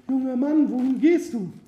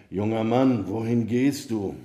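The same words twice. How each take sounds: First: Very high falsetto woman's voice; high-pitched damsel calling out; young woman calling. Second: Said in the usual way. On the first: A narrator's reading. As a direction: call him over in a high, put-on female voice. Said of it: "Sie rief ihn zu sich". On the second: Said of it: "hörte er eine Stimme, die ihn rief".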